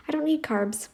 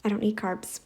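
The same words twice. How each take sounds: First: Need pitched up and stressed. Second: Said in the usual way. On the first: Shown as a demonstration. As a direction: lift and push the word need.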